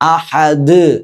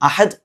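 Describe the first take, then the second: First: The final d is clearly released and heard. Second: The final d is weak and barely heard. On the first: The speaker calls it right. "ഇങ്ങനെ തന്നെ നിർത്തണം" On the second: The speaker calls it wrong. "അഹദ് അല്ല"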